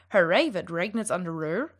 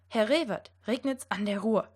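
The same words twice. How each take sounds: First: The R sounds are said like English R. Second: The R sounds are said like German R. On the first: The speaker calls it wrong. "should not sound" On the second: The speaker calls it right. "It should sound"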